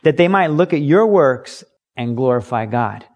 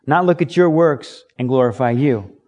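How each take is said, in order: First: "your" leaned on hard; "your works" pointed out to the listener; stress on your. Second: "you" at the end given contrastive weight; stress on you. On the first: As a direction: press the word "your". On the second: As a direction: hit "your" and "you". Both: Shown as a demonstration. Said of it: "Let me put the emphasis on there".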